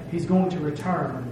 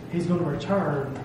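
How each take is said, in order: Both takes have the same delivery.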